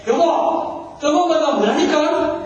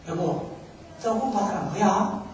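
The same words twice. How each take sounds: First: Higher-pitched, insistent mock anger; exasperated wife. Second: Gentle asking. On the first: Wife asks her silent husband once more, angrily. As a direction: imitate a fed-up wife demanding an answer. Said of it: "너무 화가 나가지고". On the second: Retold or imitated. Wife asks her silent husband the riddle, gently. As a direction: imitate a wife asking quietly. Wife's first, patient asking.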